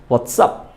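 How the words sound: Neutral accent, ending with an s sound. "Standard ওয়েতে যেভাবে বলে"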